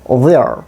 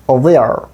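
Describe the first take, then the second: Both takes have the same delivery.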